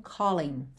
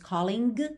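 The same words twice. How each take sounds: First: The final g sound is dropped. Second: The final g sound is pronounced. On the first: The speaker calls it right. "o G não é pronunciado" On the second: The speaker calls it wrong. "a gente não diz calling"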